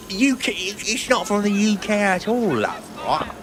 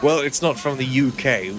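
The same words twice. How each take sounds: First: High, hammed-up British voice on UK and at all; mock posh British accent. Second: Said in the usual way. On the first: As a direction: overdo the British accent with a cheeky love at the end. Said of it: "have a hint of where your U K accent is from". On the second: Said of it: "any chance we could give, have a hint of where your U K accent is from".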